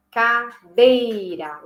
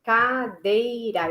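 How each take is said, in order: First: Cadeira very slowly, dei pushed out; stressed second syllable. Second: Cadeira said very slowly, stress on dei; slow stressed syllables. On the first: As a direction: stretch Cadeira, leaning hard on dei. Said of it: "a sílaba tônica está na segunda". (Cadeira lenta, acentuando o dei) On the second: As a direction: draw out Cadeira, leaning on the second syllable. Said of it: "eu vou falar a palavra cadeira". (Cadeira bem devagar, com ênfase na sílaba dei) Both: Shown as a demonstration.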